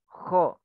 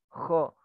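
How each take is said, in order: Both takes have the same delivery.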